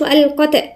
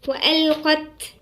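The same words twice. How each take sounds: First: The final t has an echoing bounce. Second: The final t is released with flowing breath. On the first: The speaker calls it wrong. "منقولش وألقت نقلقل" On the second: The speaker calls it right. "الصفة تبعها الهمس"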